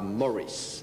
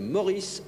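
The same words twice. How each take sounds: First: The name is pronounced the American way. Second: The name is pronounced the French way. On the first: This is the name after it was Americanized. "d'américaniser son prénom" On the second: This is the original first name. "passant ainsi de Maurice"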